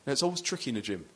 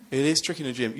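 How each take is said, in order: First: Said in the usual way. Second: "is" pushed louder, insisting; firm emphasis on "is" in "It is tricky"; stress on is. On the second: Shown as a demonstration. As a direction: lean hard on "is" to confirm it.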